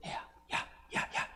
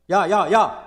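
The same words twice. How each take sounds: First: Hushed, secretive little calls; barely audible whispered calling-out; whispering. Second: Loud, forceful hollered calls; big shouted summons; calling out loudly. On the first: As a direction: whisper it like a furtive "psst". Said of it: "지혜가 지금 소곤소곤". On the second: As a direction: holler to get someone's attention. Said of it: "어떻게 하고 있냐면 불러요". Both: Shown as a demonstration.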